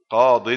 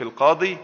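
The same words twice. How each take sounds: First: قاض said loudly as qaadin; ya dropped, tanween. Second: القاضي ending in a long -ii; final ya kept. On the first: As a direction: end قاض on a firm "-in". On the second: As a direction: hold the ya at the end of القاضي. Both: Shown as a demonstration. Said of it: "إذا كان نكرة نحذف الياء".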